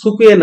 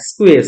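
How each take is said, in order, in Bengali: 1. প্রথম স্বরধ্বনিটি স্পষ্ট উচ্চারিত হয়। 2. প্রথম স্বরধ্বনিটি সম্পূর্ণ বাদ পড়ে। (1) "এটা কিন্তু সুকুয়ে না" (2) "সুকুয়ে কিভাবে স্কুয়ে হয়ে যায়"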